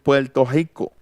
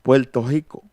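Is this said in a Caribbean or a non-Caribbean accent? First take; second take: Caribbean; Caribbean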